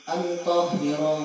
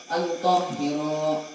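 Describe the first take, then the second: The two takes are said the same way.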